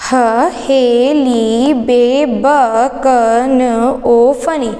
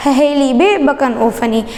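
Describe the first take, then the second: First: Stretched syllables, evenly spaced; slow mnemonic recitation. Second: Syllables joined into one quick phrase; run-together mnemonic. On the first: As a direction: draw out each syllable for learners to follow. Teacher recites mnemonic slowly, then joined. (अक्षरों को खींचकर, धीरे-धीरे) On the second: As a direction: rattle the syllables off as a single line. Same mnemonic repeated run together. (अक्षर जोड़कर, एक साँस में) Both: Shown as a demonstration.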